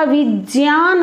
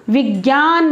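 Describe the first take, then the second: First: विज्ञान said as "vijyan", j gliding into y, no g; correct pronunciation. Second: विज्ञान said the common way as "vigyan", with a hard g; wrong pronunciation. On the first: Teacher shows students the right way: विज्ञान as "vijyan". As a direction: say विज्ञान the pure way, "vi-jyan". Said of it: "होता है". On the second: Teacher shows students the wrong way: विज्ञान as "vigyan". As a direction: say विज्ञान with a g sound, "vi-gyan". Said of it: "नहीं होता". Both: Shown as a demonstration.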